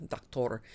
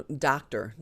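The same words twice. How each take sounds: First: "doctor" said the Spanish way, dok-TOR; Spanish "doctor", open second vowel; Spanish pronunciation. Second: "doctor" with an English r ending, DOK-ter; "doctor", stressed first syllable, reduced second; English pronunciation. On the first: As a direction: give "doctor" a full Spanish o at the end. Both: Shown as a demonstration. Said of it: "You just pronounce them a little bit differently".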